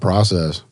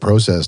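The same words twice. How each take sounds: First: The first vowel sounds like 'ah'. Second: The first vowel sounds like 'oh'. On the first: "not P R A" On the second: "It's P R O"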